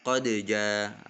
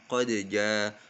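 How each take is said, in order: Both takes have the same delivery.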